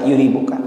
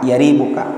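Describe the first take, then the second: First: The first vowel is a 'u' sound. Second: The first vowel is an 'a' sound. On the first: "Ada juga yang membaca yuribuka" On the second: "dibaca dengan fathah yaribuka"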